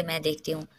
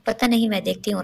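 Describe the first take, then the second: First: Said in the usual way. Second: Worried. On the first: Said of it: "राबेल बोली". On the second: A narrator's reading. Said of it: "Rashida बेगम परेशानी से बोली".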